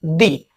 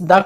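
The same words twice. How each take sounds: First: दी said with a long ee, "thee". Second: द said short, like "duh". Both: Shown as a demonstration. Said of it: "इस द के दो उच्चारण करते हैं".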